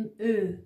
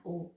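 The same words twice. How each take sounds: First: او said as a long rounded "ö"; German ö sound. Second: او said as a back "oh"; plain o contrast. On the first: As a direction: say او as ö, "eh" through rounded lips. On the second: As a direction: say او as a simple o, without umlaut. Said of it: "نه او". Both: Shown as a demonstration.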